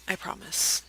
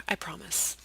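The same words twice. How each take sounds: First: Breathy whisper, no voice; whispered promise. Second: Soft promise. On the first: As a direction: whisper it like a secret. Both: Shown as a demonstration.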